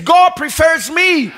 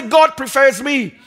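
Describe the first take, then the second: First: Slower, louder, with a push on every word; mean every word, slow and strong; said like you mean it. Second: Said in the usual way. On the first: Shown as a demonstration. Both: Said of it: "Everybody say it like you mean it".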